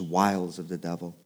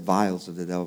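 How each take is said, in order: First: The first word sounds like 'wiles'. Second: The first word sounds like 'vials'. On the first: The speaker calls it right. "but I guess it's wiles of the devil" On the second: The speaker calls it wrong. "I always said vials of the devil"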